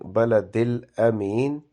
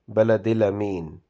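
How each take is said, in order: First: The vowel after the l is held long. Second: The vowel after the l is cut short. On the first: The speaker calls it right. "make sure that you pronounce alif separately" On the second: The speaker calls it wrong. "sounds like there is a fatha on lam and there is no separate alif"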